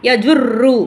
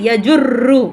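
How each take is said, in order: Both takes have the same delivery.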